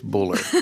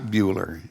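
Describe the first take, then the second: First: The name is said as Buller. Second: The name is said as Bueller. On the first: The speaker calls it right. "it's Buller" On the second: The speaker calls it wrong. "it is not Bueller"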